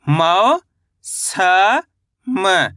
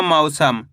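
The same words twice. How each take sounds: First: मौ, स, म as separate sounds, long pauses between; syllable by syllable. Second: Said in the usual way. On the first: Shown as a demonstration. Teacher splitting मौसम for learners, syllable by syllable. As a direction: draw out मौ with rising tune, then स, then म. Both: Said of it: "तो मिलके बन जाएगा".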